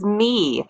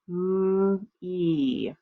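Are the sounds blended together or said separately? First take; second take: blended; separately. First: The sounds are blended into one smooth word. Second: Each sound is said slowly and separately.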